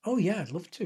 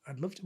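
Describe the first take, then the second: First: Retold eager acceptance. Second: Much softer, as if thinking it; retold private thought. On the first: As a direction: say yes to the invitation, mildly keen. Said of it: "And I went". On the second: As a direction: drop it to an aside to yourself. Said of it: "I thought".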